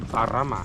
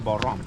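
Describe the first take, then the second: First: The name is said in its full, longer form. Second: The name is said in a clipped, shorter form. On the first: This is the original Sanskrit form. "if you say by Sanskrit, it's gonna be Parama" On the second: This is the everyday modern form. "Nowadays we shortcut calling Baram"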